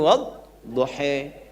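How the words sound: The final vowel is a fronted 'e'.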